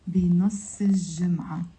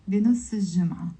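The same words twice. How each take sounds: First: "بنص الجمعة" linked into one phrase, slowly; slow liaison. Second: "بنص الجمعة" linked and said fast; quick liaison. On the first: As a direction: run "بنص" into "الجمعة" without a break, carefully. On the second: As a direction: slide "بنص" straight into "الجمعة" at a quick pace. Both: Shown as a demonstration. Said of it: "With the liaison, you pronounce it".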